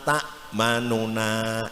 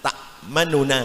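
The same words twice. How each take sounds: First: It is read at normal pace with full sound. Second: It is read quickened with a reduced vowel. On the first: "kalau kita baca biasa itu ... biasa seratus persen" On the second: "kita baca ikhtilas, dicepatkan"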